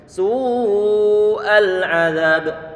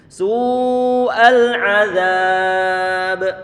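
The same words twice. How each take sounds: First: The vowel before the final b is kept short. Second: The vowel before the final b is drawn out. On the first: "boleh kita baca pendek begini" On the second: "boleh dibaca dua harokat, empat ataupun lima haro harokat"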